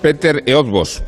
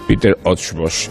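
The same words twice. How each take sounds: First: The surname is read with plain Spanish-style vowels. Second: The surname is said with Hungarian rounded vowels. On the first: "dicho así" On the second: "Es la manera correcta y académica"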